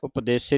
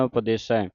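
First: The word ends in a plain 'e' vowel. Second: The word ends in an 'ai' vowel. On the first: The speaker calls it wrong. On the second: The speaker calls it right.

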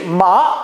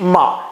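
First: The departing tone is in a high register. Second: The departing tone is in a low register. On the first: "阴去" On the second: "阳去"

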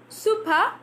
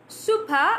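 No difference in how they are said.

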